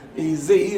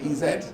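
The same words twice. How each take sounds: First: Z is pronounced zee, American style. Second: Z is pronounced zed, British style.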